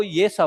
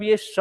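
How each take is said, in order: First: सा as a palatal "sh"; palatal sibilant. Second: श as a retroflex "sh"; retroflex sibilant. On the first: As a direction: say सा with the tongue at the palate. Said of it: "जीभ को लेके जाइए तालु में". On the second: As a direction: say श with the tongue curled to the roof. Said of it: "जीभ को लेके जाइए मूर्धा में". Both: Shown as a demonstration.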